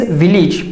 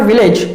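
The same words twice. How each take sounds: First: Village with a short "-ij" ending; correct pronunciation. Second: Village with a long "-ayj" ending; wrong pronunciation. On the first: Teacher giving learners the right form, correct village with "-ij". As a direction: say village as "VIL-ij". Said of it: "it is village". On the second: Teacher rejecting the usual mistake, wrong village with "-ayj". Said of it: "but it is not village". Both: Shown as a demonstration.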